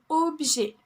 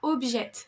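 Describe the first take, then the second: First: The final T is silent. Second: The final T is pronounced. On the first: The speaker calls it right. "il ne se prononce pas" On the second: The speaker calls it wrong. "Ce n'est pas objet"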